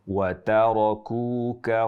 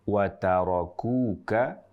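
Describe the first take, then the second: First: The k is said with light breath. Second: The k is said with light breath.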